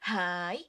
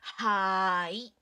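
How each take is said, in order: First: It is said quickly with a short punchy vowel. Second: It is said slowly with a long drawn-out vowel. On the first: "when you say it faster, it's gonna like not be as elongated" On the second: "we elongated certain things? It's because of the hyphens again"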